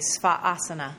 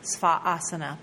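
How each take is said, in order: First: A brief catch separates the two a vowels. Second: A brief catch separates the two a vowels.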